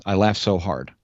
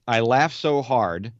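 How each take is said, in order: First: I laughed so hard ending in a firm full stop; final fall. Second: Said in the usual way. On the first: Shown as a demonstration. Host rereads a review line, stressing the full stop. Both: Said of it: "Oh, that's the end of the sentence".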